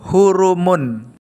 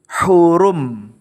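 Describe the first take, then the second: First: The word ends with an added 'un' ending. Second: The word ends on a closed 'm'. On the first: The reading continues without stopping. "Saat dibaca wasol" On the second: The reading stops at this word. "saat dibaca wakaf, maka dibaca hurum. Mimnya dibaca sukun"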